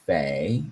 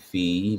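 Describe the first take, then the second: First: The vowel sounds like 'ay'. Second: The vowel sounds like 'ee'. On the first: "Maybe it's fay" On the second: "pronounced F E E"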